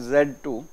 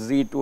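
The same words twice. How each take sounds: First: The letter is said the British way, zed. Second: The letter is said the American way, zee.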